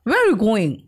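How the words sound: British accent, with the middle word swallowed. "ये होते हैं ब्रिटिश वो क्या करते हैं ना बीच के शब्दों को खा जाते हैं"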